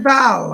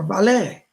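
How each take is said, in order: First: Said in the usual way. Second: "valet" with a French-style accented ending; accented name. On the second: Shown as a demonstration. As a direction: stress the final "-ay" of "valet". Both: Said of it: "Put a little accent on it".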